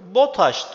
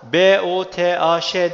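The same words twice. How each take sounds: First: It is read as a single word. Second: Each letter is named one by one. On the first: The speaker calls it right. "BOTAŞ diyorum" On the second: The speaker calls it wrong. "B-O-T-A-Ş demiyorum"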